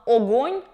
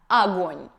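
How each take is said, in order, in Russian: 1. Первый гласный — ясный звук o. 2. Первый гласный — звук a. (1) "четко выговаривали звук «о» в начале слова" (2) "с появлением аканья"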